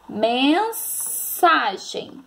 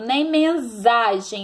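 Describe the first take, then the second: First: The S is sounded like an s. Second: The S is sounded like a z. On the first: The speaker calls it right. "Eu falo conversar, cansado, mensagem" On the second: The speaker calls it wrong.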